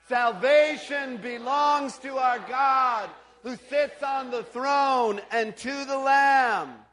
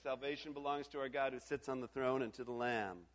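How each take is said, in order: First: It is shouted loudly. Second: It is said at normal volume.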